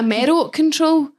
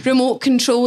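First: "Merrow control", first sounds of remote jumbled; garbled "Merrow control"; mispronunciation. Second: Said in the usual way. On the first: Shown as a demonstration. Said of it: "I was calling it a Merrow control". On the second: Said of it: "it sounded different to me".

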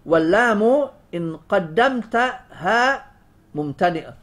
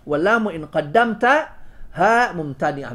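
First: "ها" drawn out slowly with a lifted rise; slow stress on ha. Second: Said in the usual way. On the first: Shown as a demonstration. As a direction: linger on "ها" in "قدمت ها", lifting it. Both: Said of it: "انظر، بالكاف حرفا دون لام".

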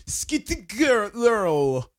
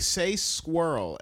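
First: High, very slow German attempt; hammed-up German mispronunciation; mangled German accent. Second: SQUIRREL said slowly and clearly; drawn-out, careful "squirrel"; prompting slowly. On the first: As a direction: struggle through squirrel in a mock German accent. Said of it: "and the German people are like". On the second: Shown as a demonstration. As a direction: model the word "squirrel" for a learner. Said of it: "trying to say the word squirrel to German people".

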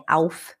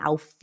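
First: "auf" in one syllable, ending on f; correct pronunciation. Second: "auf" said as two syllables, "au-fi"; wrong pronunciation. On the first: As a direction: stop "auf" cleanly on the f, no added vowel. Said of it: "é auf". (pronúncia correta, sem i no fim) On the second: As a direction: add an extra i after the f of "auf". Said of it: "não é auf". (pronúncia errada: "aufi") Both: Shown as a demonstration.

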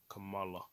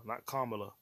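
First: "Kamala" said kuh-MAH-la, stress on the middle syllable; mother's pronunciation. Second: "Kamala" said KAH-ma-la, stress on the first syllable; the usual American way, "Kamala" as KAH-muh-luh; wrong pronunciation. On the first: Correcting how people name Kamala Khan, mother's way. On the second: Correcting how people name Kamala Khan, wrong stress first. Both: Shown as a demonstration. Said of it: "That's how her mother says Kamala".

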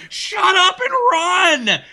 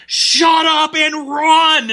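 First: High pitched yell, half laughing. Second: High, loud, drawn-out shout; yelling. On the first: Retelling how he yelled at his teammate, high yell. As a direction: repeat the order even higher. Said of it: "I'm like". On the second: Gamer yelling at his chatty teammate over Xbox Live, loud shout. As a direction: bark it slowly, exasperated. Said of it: "And I'm yelling at him". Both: Retold or imitated.

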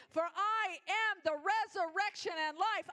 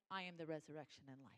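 First: Loud and high on "am", proclaiming; proclaiming shout. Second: Softly, almost under the breath, quick; hushed murmur. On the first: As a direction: shout it out as the peak of the sermon. Climax of the sermon. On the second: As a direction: murmur it like a private promise. God's words, quietly. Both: Acted.

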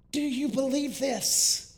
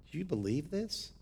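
First: Higher, slower, ringing question; Jesus' question, preached. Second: Said in the usual way. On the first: Retold or imitated. Pastor quoting Jesus' question to Martha, ringing and higher. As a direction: lift the question up to the back pew.

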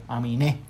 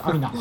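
First: "Aminé" with the stress on the last syllable, a-mi-NÉ; stress on final E. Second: "Amina" said the English way, ending in a plain -na, stress not on the end; English-style Amina. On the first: Host spells out the rapper's name to his co-host, "[name]" stressed on the last é. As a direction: say "Aminé" Spanish-style, the accent landing on the final é. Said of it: "tiene el acento en la E".

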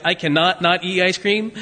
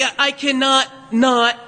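First: Said in the usual way. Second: Slow, with "cannot" and "not" each hit hard; emphatic double negative. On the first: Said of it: "If I said something like". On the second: Shown as a demonstration. Preacher showing the congregation the Greek emphasis, slow stressed "cannot not". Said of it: "if I said it in Greek".

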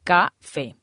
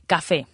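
First: "Café" split into ca, then fé; syllable by syllable. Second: Said in the usual way. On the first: Shown as a demonstration. Teacher showing the accented final E, "Café" split by syllables. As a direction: say "Café" in two separate beats, stress on fé. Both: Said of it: "se acentúa en la E".

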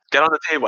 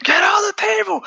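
First: Said in the usual way. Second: Much higher, louder yelled command; retold shouted order. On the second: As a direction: bark it like a menacing villain. Villain forces girl onto table.

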